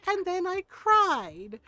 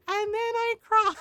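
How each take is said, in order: First: Slow and matter-of-fact; slow plain telling. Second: Louder, higher punchline. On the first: Telling friends she cried, slow and plain. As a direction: let the words land slowly, plain. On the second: Telling friends she cried, louder, higher comic repeat. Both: Real, not acted.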